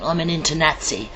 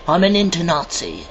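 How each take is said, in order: First: "inter-Nazi" said with a short "NAT-see"; short-vowel pronunciation. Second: "inter-Nazi" said with an open "NAHT-see"; open-vowel pronunciation. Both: Shown as a demonstration. Repeats coined word, vowel changed.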